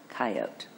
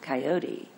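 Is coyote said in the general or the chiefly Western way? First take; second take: Western; general. First: It uses the chiefly Western regional pronunciation. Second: It uses the general, non-Western pronunciation. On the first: "but chiefly Western"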